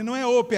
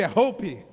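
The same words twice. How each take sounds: First: OPE said as "Ô-pi", louder; imitated correction, OPE starting on the vowel; wrong, dropped H. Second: HOPE said as "HOU-pi"; imitated correction, breathed H opening HOPE; corrected, sounded H. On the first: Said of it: "no Brasil o H não tem som". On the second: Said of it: "o H tem som de R".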